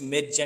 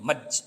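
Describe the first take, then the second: First: The vowel is an open 'e' like 'air'. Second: The vowel is a central 'er' like 'her'. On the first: The speaker calls it wrong. "జనం అది జనరల్గా use చేసేటప్పుడు మెర్జ్ మెర్జ్ అనేస్తాం" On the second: The speaker calls it right. "కరెక్ట్గా పలకాలంటే మర్జ్ అని అంటాం"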